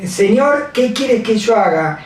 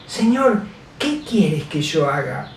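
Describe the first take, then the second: First: Said in the usual way. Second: Softly, almost under the breath, "Señor, ¿qué quieres que yo haga?"; a hushed, humble plea to the Lord; humble quiet prayer. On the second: Shown as a demonstration. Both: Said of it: "¿le has dicho alguna vez así al Señor?".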